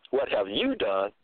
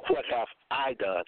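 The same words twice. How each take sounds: First: "you" picked out and stressed. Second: "I" picked out as the wrong person; weight on "I", then falling away; stress on I. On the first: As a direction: put the weight on "you". Turns the question onto the listener. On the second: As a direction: lean on "I" in the question. Contrasts himself with the listener. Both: Shown as a demonstration.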